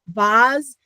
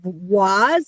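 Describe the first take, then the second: First: The word begins with a V sound. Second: The word begins with a W sound. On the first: "it's a V W sound" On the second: "it's a V W sound"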